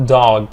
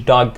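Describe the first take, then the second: First: DOG with a long open vowel. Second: DOG clipped to sound like "dug"; wrong short vowel. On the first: Teacher giving the corrected word, long-vowel DOG. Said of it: "It's actually a long vowel". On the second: Teacher showing what to avoid, short-vowel DOG. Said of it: "No, dog". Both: Shown as a demonstration.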